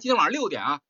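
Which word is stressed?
六点. The stress is on 六点.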